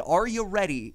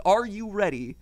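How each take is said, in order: First: Lightly voiced pirate; a hint of a pirate call. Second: Lightly voiced pirate, a bit higher and louder; a hint of a pirate captain. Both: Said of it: "in the pirate-esque voice".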